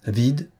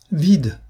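First: Mildly astonished question, rising; astonished echo. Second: High, loud despairing exclamation; cry of despair. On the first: Chevalier echoing the marquise's discovery, astonished question. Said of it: "reprit avec étonnement le chevalier". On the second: Marquise finding the secretary empty, cry of despair. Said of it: "en poussant un cri de désespoir". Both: A narrator's reading.

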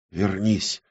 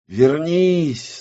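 First: Soft, feverish plea; feverish whisper. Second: High-pitched desperate call; crying out. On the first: Оксана calls the lost world back, whispering feverishly. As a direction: murmur it urgently under the breath. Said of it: "лихорадочно шептала Оксана". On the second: Оксана calls the lost world back, crying out. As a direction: cry out to bring it back. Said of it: "закричала Оксана". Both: Acted.

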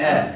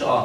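First: Thin fronted "آ"; light hamza. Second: "آه" with an emphatic back a; thickened hamza. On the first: Teacher giving the right sound, light vowel. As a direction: say "آ" light, without thickening. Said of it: "تقول". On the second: Teacher repeating what to avoid, thick vowel. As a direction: make the a in "آه" heavy. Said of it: "ما تفخمهاش، ما تقولش". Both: Shown as a demonstration.

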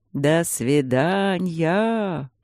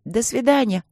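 First: Very slow, drawn-out mincing goodbye; thin mannered drawl. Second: Put-on higher piping child's goodbye; squeaky little girl goodbye. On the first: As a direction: stretch it out, camp and coy. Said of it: "протянул он тонким манерным голоском". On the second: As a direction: chirp it like a small girl. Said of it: "запищали девочки". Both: A narrator's reading.

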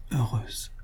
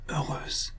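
First: Much softer, barely voiced "Heureuse"; faint dying murmur. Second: "heureuse" whispered, no voice at all; dying whisper. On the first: Dying wife to her husband, a much softer faint murmur. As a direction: breathe "Heureuse" out faintly, near the end of strength. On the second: Dying wife repeating to her husband, whispered. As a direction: let the second "heureuse" fade into a bare whisper. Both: A narrator's reading. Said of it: "dit-elle deux fois".

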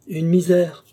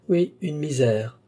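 First: Loud, high, brisk declaration; breezy assertion. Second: Slow, higher, ironic echo. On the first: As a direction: toss it out emphatically as a trifle. Offhand answer, later echoed ironically. (affirmation forte et désinvolte) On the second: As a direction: repeat it with drawn-out irony. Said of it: "dit-il ironiquement". (écho ironique, lent et traînant) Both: A narrator's reading.

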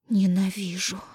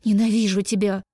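First: Breathy whispered moan. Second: «Ненавижу» shouted louder. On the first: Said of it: "выстонала Даша". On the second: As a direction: yell «Ненавижу тебя» with force. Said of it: "Выкрикивая". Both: A narrator's reading.

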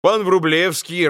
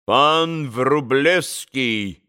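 First: Said in the usual way. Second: Put-on very slow Polish-accented prompt; lightly voiced Polish gentleman. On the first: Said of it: "подсказал пан на диване". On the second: Pan on the sofa prompting the name, Polish accent.

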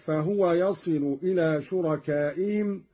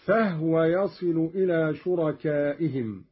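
First: Said in the usual way. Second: فهو said "fahwa", no u after the h; silent-vowel haa. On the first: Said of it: "وكذا". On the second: Shown as a demonstration. Teacher giving a further Qalun example, فهو with vowelless ha. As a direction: join h straight to w in فهو. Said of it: "قرأ قالون بإسكان الهاء".

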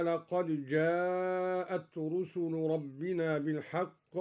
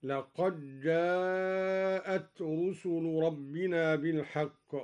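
First: Slow recitation, laqad-jaa'at with d sounded in لقد; unmerged dal. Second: Slow recitation, d of لقد lost in a doubled j; dal merged into jeem. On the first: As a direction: recite لقد جاءت with a separate, echoed d. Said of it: "أدغم الدوري الدال في الجيم". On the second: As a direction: recite لقد جاءت as laqajjaa'at. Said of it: "أدغم الدوري الدال في الجيم هكذا". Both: Shown as a demonstration.

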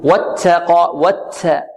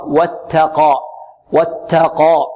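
First: ت in واتقى hissing toward "ts"; s-tinged ta. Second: ت in واتقى released without any s; clean ta. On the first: Teacher imitates how some wrongly recite it, s-tinged ta. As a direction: mix an s into the t of واتقى. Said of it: "ونحذر من إشرابها السين". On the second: Teacher corrects the s-tinged mistake, clean ta. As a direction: say a pure, light t in واتقى. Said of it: "خطأ". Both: Shown as a demonstration.

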